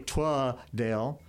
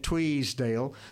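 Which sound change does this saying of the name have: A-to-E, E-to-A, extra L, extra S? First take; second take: E-to-A; extra S. First: The first syllable's vowel is an A sound. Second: An extra S sound is added to the name. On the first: "pronounce both E's with an A" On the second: "put an S in it"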